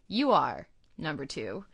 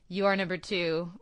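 First: It is said with a pause after "You". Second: It is said without a pause after "You".

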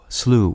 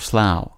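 First: The vowel sounds like the one in blue. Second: The vowel sounds like the one in cow. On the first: "pronounced to rhyme with either blue" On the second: "or cow"

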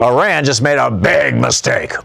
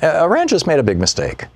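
First: It is said in a hostile, threatening tone. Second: It is said in a mild, forgiving tone. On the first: A warning that retaliation is coming. "there's two ways to say that" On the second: An acknowledgement that someone simply erred. "Or it could be"

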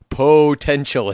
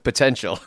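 First: The first vowel is a long, full O sound. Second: The first vowel is short and reduced. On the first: This is the announcer's signature way of saying it. "how do you make it say potential" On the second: This is the ordinary way of saying it. "instead of potential"

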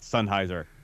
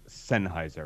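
First: The first syllable has the vowel of 'sun'. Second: The first syllable has the vowel of 'sen'. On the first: The speaker calls it wrong. "not Sennheiser" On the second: The speaker calls it right. "It is properly pronounced Sennheiser"

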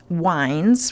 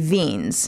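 First: The name is given an English pronunciation. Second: The name is given a German pronunciation. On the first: "The English pronunciation, we'd say it was wines" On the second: "if I really went with a German, it would be Wiens"

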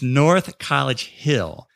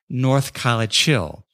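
First: The name is said clearly with every sound. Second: The name is mumbled with sounds run together. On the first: "I'm not trying to pronounce it right" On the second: "they pronounce it North College Hill. ... We mumble in Ohio"

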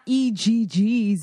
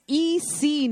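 First: The syllable ends with a g sound. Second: The syllable ends with a k sound. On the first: The speaker calls it wrong. "not EGG" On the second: The speaker calls it right. "It's EC"

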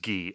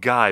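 First: The name is said unlike its spelling. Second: The name is read the way it is spelled. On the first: The speaker calls it right. "I'm pretty sure it's pronounced Guy" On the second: The speaker calls it wrong. "it's spelled Guy"

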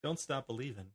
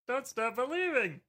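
First: It is said in his normal voice. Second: It is said in a Pee-wee Herman voice.

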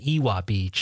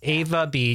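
First: The first word has a W sound in the middle. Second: The first word has a V sound in the middle. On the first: The speaker calls it wrong. "So I was always pronouncing it Ewa Beach" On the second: The speaker calls it right. "we were corrected pretty much right away. It's Ava Beach"

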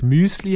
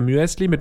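First: The vowel is a plain, single ü sound. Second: The vowel glides from ü into an e.

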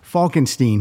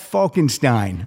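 First: The last syllable sounds like 'steen'. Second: The last syllable sounds like 'stine'. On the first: The speaker calls it wrong. "I said it right and now I screwed it up" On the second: The speaker calls it right.

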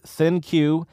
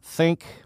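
First: The name ends with a separate 'cue' sound. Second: The name sounds like the word 'think'. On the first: The speaker calls it right. "The pronunciation of this smartphone is ThinQ" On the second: The speaker calls it wrong. "not Think"

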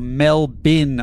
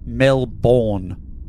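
First: The second syllable is reduced to a short 'bin'. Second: The second syllable is a full 'bourne' sound. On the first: The speaker calls it right. "It's pronounced Melbourne or Melbin" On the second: The speaker calls it wrong. "not Melbourne"

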